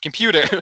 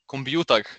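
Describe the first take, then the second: First: It is said with an English pronunciation. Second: It is said with an Egyptian Arabic pronunciation. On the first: It is the original English form. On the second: It is the local borrowed form.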